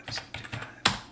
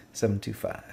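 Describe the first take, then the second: First: Softly whispered digits; whispered repeat. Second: Said in the usual way. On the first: Shown as a demonstration. Tutor double-checking digits alone, whispering softly. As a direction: echo the number to yourself in a whisper. Repeating the number under breath.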